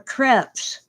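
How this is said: The word is said with a French pronunciation. The speaker calls it right. "French pancakes are crepes"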